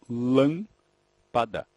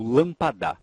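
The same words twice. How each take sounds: First: Lâmpada very slow, LÂM long and strong; syllable-by-syllable demo. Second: Lâmpada as lampa-DÁ, last syllable stressed; misplaced stress. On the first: Teacher showing the class the tonic syllable, lâmpada slowly split with LÂM stressed. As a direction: stretch the first syllable of lâmpada, then the rest. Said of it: "quando você pronuncia a palavra devagar". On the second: Teacher showing what no native speaker says, lâmpada wrongly stressed on DA. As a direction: throw the weight of lâmpada onto the final DA, louder. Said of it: "Nenhum falante da língua vai dizer".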